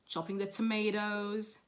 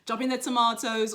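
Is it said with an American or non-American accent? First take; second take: American; non-American. First: It is said with an American accent. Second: It is said with a non-American accent.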